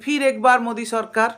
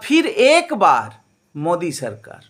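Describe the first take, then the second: First: The slogan is said in a plain, ordinary way. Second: The slogan is said with a marked, different emphasis. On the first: The government should come back again. "আপনি যদি এমনি সাধারণভাবে কথাটা বলেন" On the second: The government should come back just one last time. "এই একই বাক্যটাকে যদি একটু অন্যভাবে বলেন"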